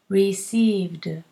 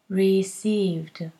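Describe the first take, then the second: No difference in how they are said.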